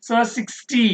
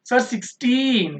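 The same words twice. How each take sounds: First: Sixty said as against sixteen, no final n; sixty, short ending. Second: Put-on sixteen with a long, stressed teen; slow down and stretch the teen in sixteen; clearly pronounced teen. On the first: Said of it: "not properly stress the word". (sixty చివర ty, teen కాకుండా) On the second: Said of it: "The teen is pronounced very clearly". (sixteen లో teen సాగదీసి స్పష్టంగా) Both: Shown as a demonstration.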